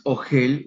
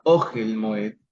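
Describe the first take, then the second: First: Ogel with stress on the last syllable, o-GEL; wrong stress. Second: Ogel with stress on the first syllable, on the Aleph, OH-gel; correct stress. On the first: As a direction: say Ogel stressing the end, as the mistaken form. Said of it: "No es Ogel". (Ogel acentuado en la última sílaba, o-GUEL, la forma incorrecta) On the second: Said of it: "tiene el acento bajo la consonante Aleph". (Ogel con acento en la primera sílaba, bajo la Aleph: O-guel Moed) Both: Shown as a demonstration.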